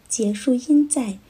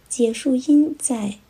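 No difference in how they are said.

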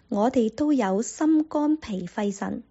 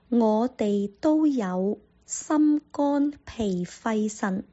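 First: The sentence is spoken at a normal, faster pace. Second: The sentence is spoken slowly and carefully. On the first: "正常的速度" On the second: "再说一次"

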